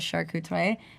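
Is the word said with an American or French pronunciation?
French. The word is said with a French pronunciation. "I think the French pronunciation I'm gonna butcher as uh"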